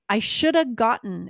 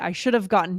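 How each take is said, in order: First: The word have is reduced to a short uh. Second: The word have is fully pronounced with v. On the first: "it all takes place in the top of my mouth" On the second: "just think about how much longer it takes to say"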